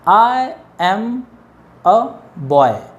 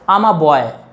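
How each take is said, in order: First: I and am are said as two words. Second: I and am merge into one syllable. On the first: "separately pronounce करेंगे" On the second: "इसको मर्ज करके अगर इसको हम contraction बनाते हैं"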